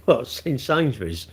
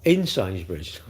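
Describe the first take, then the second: First: Laughing, slow incredulous repeat. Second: Said in the usual way. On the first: Real, not acted. Streamer repeats a viewer's odd comment, amused and incredulous. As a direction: laugh it back in disbelief.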